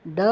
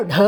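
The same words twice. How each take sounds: First: Retroflex "da" with little air on ட; ட voiced, without a puff; unaspirated voiced ட. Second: Breathy retroflex "dha" with a puff on ட; ட as a heavy "dha"; aspirated voiced ட. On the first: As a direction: say ட as an easy "da". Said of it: "அல்ப பிரான் டா". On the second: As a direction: push air through a voiced ட. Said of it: "மகாப்ரான் ட". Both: Shown as a demonstration.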